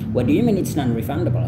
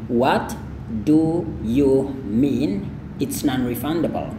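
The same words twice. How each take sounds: First: It is said fluently with the T sound dropped. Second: It is said slowly with the T sound pronounced. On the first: "kalau Anda mau ngomong lebih you know, lancar, T yang ini nggak usah dilafalkan aja ya" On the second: "kita praktikkan pelan-pelan dulu ya"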